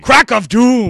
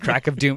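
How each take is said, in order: First: It is said loudly and dramatically. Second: It is said in a plain, calm voice.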